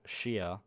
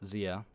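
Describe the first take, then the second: First: The name is said the East Asian way. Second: The name is said the English way. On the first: "if you know it from Chinese or Japanese, you might pronounce it Shia" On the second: "I use a anglicized version of Zia"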